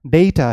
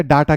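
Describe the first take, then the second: First: डेटा as "DAY-ta"; corrected pronunciation. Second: डेटा as "DAA-taa", long ah; Indian-style डेटा, both vowels ah; Indian English pronunciation. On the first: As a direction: say डेटा firmly with an "ay" vowel. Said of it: "ये आपका डेटा है". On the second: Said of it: "Indian English है". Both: Shown as a demonstration.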